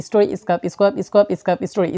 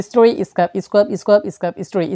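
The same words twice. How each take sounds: No difference in how they are said.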